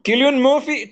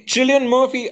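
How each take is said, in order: First: Cillian said with a hard K, "Killian"; "Cillian" as KIL-yun, tried out higher; hard K pronunciation. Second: Cillian said with a CH, "Chillian"; "Cillian" as CHIL-yun, tried out higher; CH pronunciation. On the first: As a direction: open "Cillian" with a K sound. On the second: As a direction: open "Cillian" with a CH sound. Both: Real, not acted. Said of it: "I do not know how to pronounce that guy's name".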